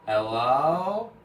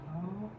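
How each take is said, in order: First: Louder rising call into emptiness; first loud call. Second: Soft, high fading echo of the call; imitated dying echo; faint echo. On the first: Retold or imitated. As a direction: call out into the void. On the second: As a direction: let it fade like a far echo. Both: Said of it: "As it echoes".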